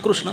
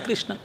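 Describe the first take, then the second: First: The first syllable sounds like kroo. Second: The first syllable sounds like kree. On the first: "क्रू है" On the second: "क्री है"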